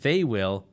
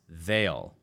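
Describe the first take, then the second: First: It is said as two full words. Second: It is said as one contracted word. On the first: "they will becomes they'll" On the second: "becomes they'll"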